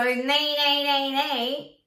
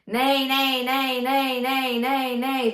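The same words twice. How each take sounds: First: Max out the twang; full twang. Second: Gentle twang, still bright; just a touch of twang; light twang. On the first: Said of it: "nay is a hundred percent of twang". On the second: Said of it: "Let's do thirty". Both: Shown as a demonstration.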